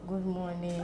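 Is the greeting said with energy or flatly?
flatly. It is said flatly, with little energy.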